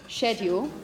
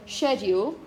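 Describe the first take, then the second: First: The word begins with an sh sound. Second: The word begins with an sh sound.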